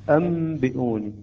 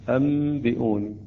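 Both takes have the same delivery.

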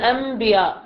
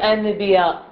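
First: An m sound is said before the b. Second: A clear n sound is said before the b. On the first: The speaker calls it right. "يقول أنبياء" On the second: The speaker calls it wrong. "ماكو واحد في الكلام في النطق الطبيعي النطق العادي يقول أنبياء"

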